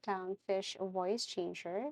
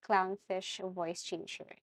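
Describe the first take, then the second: No difference in how they are said.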